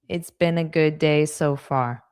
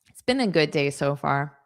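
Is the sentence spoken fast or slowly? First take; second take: slowly; fast. First: The sentence is spoken at a slow pace. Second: The sentence is spoken at a fast pace. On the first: "Now I'll say it slowly" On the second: "I'll say it fast"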